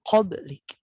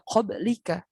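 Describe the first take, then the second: First: The word ends on a bare consonant. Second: The word ends with a final -a vowel. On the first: The speaker calls it right. "tapi dimatikan menjadi qablik" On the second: The speaker calls it wrong. "Bukan dibaca qablika"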